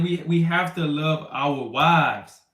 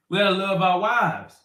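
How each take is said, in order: First: Slow, deliberate we have to love our wives; slow emphasis. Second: Said in the usual way. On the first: Shown as a demonstration. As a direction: lean on every word, slowly. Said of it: "repeats the point slowly". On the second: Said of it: "repeats the point".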